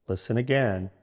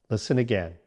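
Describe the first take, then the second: No difference in how they are said.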